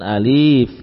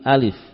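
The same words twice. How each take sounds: First: The vowels are drawn out long. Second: The vowels are kept short. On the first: The speaker calls it wrong. "bukan alif" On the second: The speaker calls it right. "tapi alif"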